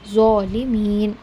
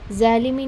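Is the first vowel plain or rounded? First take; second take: rounded; plain. First: The first vowel is a rounded 'o'-like sound. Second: The first vowel is a plain open 'a'. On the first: The speaker calls it right. "ओ वाली sound" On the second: The speaker calls it wrong. "ज़ालिमीन नहीं"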